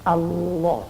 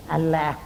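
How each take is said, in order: First: Allah with a thick, full lam like "Alloh"; Allah, thick lam, the right way. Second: Allah with a thin, light lam like "Alla"; Allah, thin lam, as it must not be read; wrong thin lam. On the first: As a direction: say Allah correctly, with the lam heavy and dark. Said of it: "Ini harus dibaca tebal". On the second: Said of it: "Tidak boleh dibaca Allah". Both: Shown as a demonstration.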